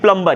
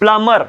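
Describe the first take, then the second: First: The b sound after m is pronounced. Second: The b sound after m is left out. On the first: The speaker calls it wrong. "ना कि" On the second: The speaker calls it right. "B silent हो जाता है, इसे सिर्फ मां बोलोगे"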